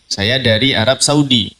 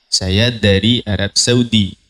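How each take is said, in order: First: Plain Indonesian pronunciation. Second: Put-on slow Arabic accent. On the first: Shown as a demonstration. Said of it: "kalau kita kan begitu".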